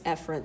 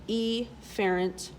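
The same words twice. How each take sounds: First: The first vowel is a short, weak sound. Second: The first vowel is a long 'ee' sound. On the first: The speaker calls it right. "you would actually pronounce this efferent" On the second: The speaker calls it wrong. "I like to um, mispronounce it on purpose"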